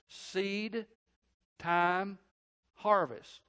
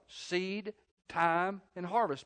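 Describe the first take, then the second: First: It is said slowly and deliberately. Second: It is said at a normal pace.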